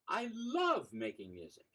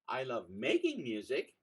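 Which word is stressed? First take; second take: love; making. First: The word "love" carries the stress. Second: The word "making" carries the stress.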